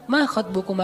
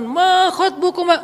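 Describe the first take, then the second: First: Soft conversational question, no preaching; gentle, polite. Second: High, drawn-out sermon delivery; preacher's tone. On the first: Musa politely addressing two young women, gently. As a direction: ask it kindly and casually. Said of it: "Kan lagi ngomong sama cewek nih". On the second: Khatib who misunderstands the story, slow high proclamation. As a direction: stretch it out like a khatib. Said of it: "Kan kalau khatib berubah". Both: Shown as a demonstration.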